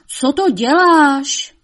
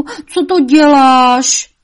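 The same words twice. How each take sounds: First: High, loud, slow devil voice; shrieking devil. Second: Higher, much louder, very slow angry question; furious devil roar. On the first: Devil asking his mother what she is doing, shrieking. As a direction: stretch out the outraged question. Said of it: "zavřeštěl čert". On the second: Devil roaring angrily at his mother. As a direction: bellow it out in rage. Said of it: "zařval ďábel vztekle". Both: A narrator's reading.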